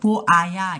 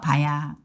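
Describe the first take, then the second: First: The word is said fully in three syllables. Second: The word is contracted into two syllables. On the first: "한국 사람들은 이 보아야를 뭐라고 해요?" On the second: "봐야 이렇게 줄일 수 있어요"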